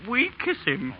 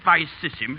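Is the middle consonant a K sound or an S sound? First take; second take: K sound; S sound. First: The middle consonant is a hard K sound. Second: The middle consonant is a soft S sound. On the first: This is the new style being imposed. The speaker calls it wrong. "you'd make him say" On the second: This is the traditional way of saying it. The speaker calls it right. "instead of"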